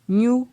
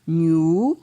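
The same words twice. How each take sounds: First: The syllable is said on a high tone. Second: The syllable is said on a mid tone. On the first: "Syllabe avec un ton haut" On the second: "Syllabe avec un ton moyen"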